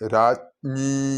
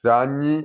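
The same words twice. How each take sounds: First: Both the j and ny sounds are clearly heard. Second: The j and ny sounds are not both clear. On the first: The speaker calls it right. "ഇവിടെ ജായും ഞായുമാണ്... രാജ്ഞി എന്ന് തന്നെ കേൾക്കണം" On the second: The speaker calls it wrong. "എന്നായി പോരുത്"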